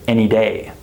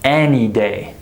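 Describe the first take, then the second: First: The word any is reduced and said quickly. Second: The word any is said fully and slowly. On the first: The speaker calls it right. "We say" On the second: The speaker calls it wrong. "We don't say"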